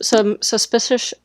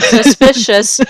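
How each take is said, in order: First: "suspicious" slowly slurred at the end; stumbled word. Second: "suspicious" drawn out syllable by syllable, louder; careful retry. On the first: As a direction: trip over the ending of "suspicious". Stumbles on a word while retelling. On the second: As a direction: sound out "suspicious" slowly and deliberately. Careful retry after stumbling on it. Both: Real, not acted.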